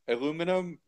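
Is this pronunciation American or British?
American. It is said with four syllables, American style.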